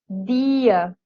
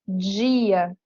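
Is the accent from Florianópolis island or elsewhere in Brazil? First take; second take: Florianópolis; elsewhere. First: Said with a Florianópolis island accent. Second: Said with an accent from elsewhere in Brazil. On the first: "A pessoa que é nascida aqui na ilha de Florianópolis, ela vai dizer tia, dia" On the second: "Já em outras partes do Brasil vai falar tia, dia"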